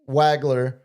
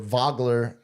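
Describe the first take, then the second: First: The name starts with an English W sound. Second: The name starts with a German V sound.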